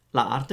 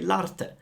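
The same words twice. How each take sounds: First: "la arte" with both a vowels sounded; vowels kept apart. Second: "l'arte" run together as one word; a single a after the l in "l'arte"; elided vowel. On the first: Teacher showing learners the form to avoid, vowels kept apart in "la arte". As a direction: say "la arte" as two separate words. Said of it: "Instead of saying". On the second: Teacher showing learners what Italians say, elided "l'arte" as one word. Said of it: "we say l'arte". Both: Shown as a demonstration.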